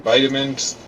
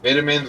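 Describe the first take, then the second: First: It is said with an American pronunciation. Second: It is said with a British pronunciation. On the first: "we say vitamins" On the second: "The U K says vitamins"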